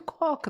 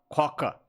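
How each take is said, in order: First: It is said in a light, friendly voice. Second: It is said in a deep, gruff voice. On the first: Everything is normal today. "todo dia você chega e fala, oi Coca" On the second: Something is wrong today. "Fala grosso"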